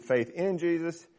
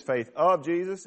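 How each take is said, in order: First: "in" stressed as the other option. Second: "of" stressed as one option. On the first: Preacher weighing both readings, stress on "in". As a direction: pick out the word "in". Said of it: "or whether you read it". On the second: Preacher weighing both readings, stress on "of". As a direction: pick out the word "of". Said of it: "whether you read it as". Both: Shown as a demonstration.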